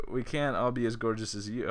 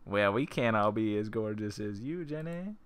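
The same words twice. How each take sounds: First: Said in the usual way. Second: Lightly flirty character read, rising on Jenny. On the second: Shown as a demonstration. Player redoing Jenny's line as a light flirt. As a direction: purr it like a compliment you mean. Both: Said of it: "Oh, hell yeah".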